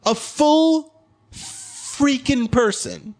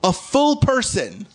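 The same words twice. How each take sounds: First: "A full freaking person." very slow, higher; drawn-out stress on FULL. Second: "full" stretched slowly, a bit higher; stress on FULL. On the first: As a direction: stretch "full freaking" out, very slowly. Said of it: "same words repeated, slower". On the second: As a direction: lean slowly on "full" in "A full person.". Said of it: "same words repeated louder". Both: Shown as a demonstration.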